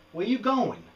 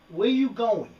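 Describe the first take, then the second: First: Higher, coaxing question to a wandering pet; calling after lizard. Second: Higher and louder, more insistent; louder call to lizard. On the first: Talking to his lizard, higher coaxing call. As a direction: sing it up to the runaway lizard. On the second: Lizard still wandering, louder insistent call. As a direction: call him back a bit firmer. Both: Real, not acted.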